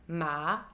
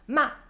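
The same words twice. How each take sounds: First: The pitch dips low, then rises again. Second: The pitch falls sharply to low. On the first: "je vais d'abord dans le grave et ensuite je remonte" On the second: "c'est un ton qui descend"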